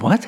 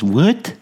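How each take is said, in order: First: Said in the usual way. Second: Mocking echo. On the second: Stranger mocks "what?" back.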